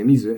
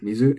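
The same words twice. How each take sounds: First: The pitch has an accent drop. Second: The pitch stays flat with no drop. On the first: The speaker calls it wrong. "Don't say mizu" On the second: The speaker calls it right. "Mizu is flat"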